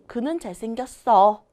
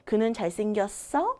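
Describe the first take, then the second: First: The pitch falls at the end. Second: The pitch rises at the end. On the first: It is a statement answering the question. "하고 내려갑니다" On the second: It is a question. "하고 올라가죠"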